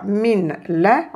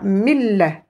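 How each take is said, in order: First: The n is pronounced before the l. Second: The n merges into a doubled l. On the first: The speaker calls it wrong. "au lieu de dire min la" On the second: The speaker calls it right. "on dira mille"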